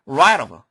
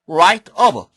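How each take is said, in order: First: The two words are linked together. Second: The two words are said separately.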